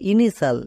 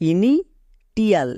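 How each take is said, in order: First: The middle consonant is an sh sound. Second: The middle consonant is a t sound. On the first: The speaker calls it right. "এর উচ্চারণ হবে ইনিশাল" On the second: The speaker calls it wrong. "এটা উচ্চারণ হবে না"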